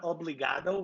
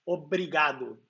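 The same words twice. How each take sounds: First: "obrigado" said with an L, as obligado; L instead of R. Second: "obrigado" with a Brazilian tapped R, ending in oo; correct R, no L. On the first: Streamer shows a viewer the wrong way, "obrigado" with an L. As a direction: swap the R in "obrigado" for an L. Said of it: "not obrigado with an L". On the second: Streamer corrects a viewer, "obrigado" with a tapped R, not L. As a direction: tap the R in "obrigado" as a Brazilian does. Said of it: "It's not obrigado with an L". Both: Shown as a demonstration.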